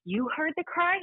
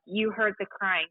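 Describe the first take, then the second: First: Much higher, rising in surprise; surprised question. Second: Slow, firm statement with a falling end; bursting into the archivist's office to say it; flat statement. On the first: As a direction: ask it in disbelief. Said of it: "She goes". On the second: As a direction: state it as fact. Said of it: "and I'm like". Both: Retold or imitated.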